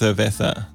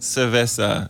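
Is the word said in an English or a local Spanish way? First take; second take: Spanish; English. First: It is said with a local Spanish pronunciation. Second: It is said with an English-style pronunciation. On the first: "But if you pronounce it locally, it's Cerveza" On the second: "It's like Cerveza, so like C-E-R-V-E-S-A"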